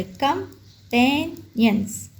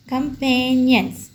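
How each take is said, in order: First: कंपेनियंस slowly split into three syllables. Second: Said in the usual way. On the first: Shown as a demonstration. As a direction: break कंपेनियंस into कं, पेन, यंस with pauses. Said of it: "three syllable word है". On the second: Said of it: "अब ये three syllable word है".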